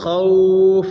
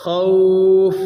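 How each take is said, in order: Both takes have the same delivery.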